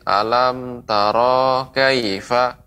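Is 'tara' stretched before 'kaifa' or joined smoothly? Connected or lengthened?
lengthened. The vowel before 'kaifa' is drawn out slightly. The speaker calls it wrong. "Di sini ada panjang sedikit"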